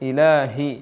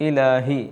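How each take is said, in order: No difference in how they are said.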